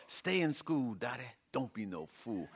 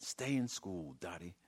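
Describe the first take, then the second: First: Southern holler. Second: Said in the usual way. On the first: Acted. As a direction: holler it like a southern soul star. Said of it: "holler in a southern accent". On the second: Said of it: "given it to her straight".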